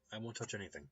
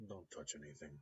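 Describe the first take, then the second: First: Said in the usual way. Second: Put-on quiet, light Russian accent on "don't touch anything"; the mechanic's polite warning in a light Russian accent. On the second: The mechanic warns the neighbor, softly, in a Russian accent. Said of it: "hint of a Russian accent".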